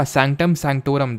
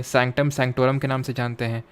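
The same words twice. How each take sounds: First: Sanctum sanctorum, each syllable drawn out very slowly; teacher dictating "sanctum sanctorum" word by word; slow clear term. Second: Said in the usual way. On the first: Shown as a demonstration. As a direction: spell the term out slowly for the class.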